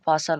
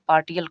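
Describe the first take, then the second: First: The middle consonant is pronounced as sh. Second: The middle consonant is pronounced as t. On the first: The speaker calls it right. "पार्शल होता है" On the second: The speaker calls it wrong. "नहीं मालूम रहेगा तो पार्टियल"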